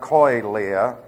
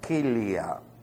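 First: The first vowel sounds like oy. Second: The first vowel sounds like ee. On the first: The speaker calls it wrong. "It's not oi" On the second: The speaker calls it right. "it's pronounced like a long E"

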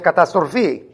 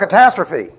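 First: It is pronounced the Greek way. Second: It is pronounced the usual English way. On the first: "That's Greek. Only it's catastrophe" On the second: "You say, what a catastrophe"

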